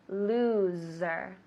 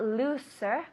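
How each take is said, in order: First: The middle consonant is a buzzing Z sound. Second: The middle consonant is a hissing S sound. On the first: The speaker calls it right. "the S sounds like a Z" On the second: The speaker calls it wrong. "So it's not looser"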